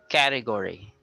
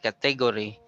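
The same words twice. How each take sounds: First: The stress is on the first syllable. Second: The stress is not on the first syllable. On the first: The speaker calls it right. "the stress is on the first syllable" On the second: The speaker calls it wrong. "It's not category"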